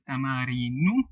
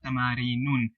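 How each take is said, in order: First: The word ends in a vowel, without a final n. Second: The word ends with an added final n sound. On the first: The speaker calls it right. "I said tamareenu" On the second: The speaker calls it wrong. "not tamareenun"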